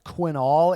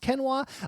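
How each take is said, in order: First: The word ends with an l sound. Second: The word ends with a vowel sound. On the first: It is read the way it is spelled. "It looks like quinol" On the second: It is said the way the speaker believes is correct. "I believe it's pronounced Kenwa"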